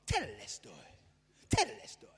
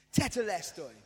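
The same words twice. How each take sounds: First: A deliberately funky, goofy take on Tetelestoi; self-mocking funky Tetelestoi. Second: Said in the usual way. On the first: Shown as a demonstration. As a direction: jazz up the word Tetelestoi with some funk. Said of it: "Now say it with some funk". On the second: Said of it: "Say that to me".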